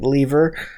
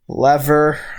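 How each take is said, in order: First: It is said the British way. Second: It is said the American way.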